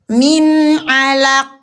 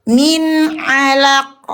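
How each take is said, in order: No difference in how they are said.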